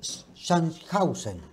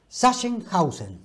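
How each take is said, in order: First: The name is said with Spanish-style sounds. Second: The name is said with German-style sounds. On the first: The speaker calls it wrong. "Está mal dicho" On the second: The speaker calls it right. "es Sachsenhausen. Así se dice, el alemán"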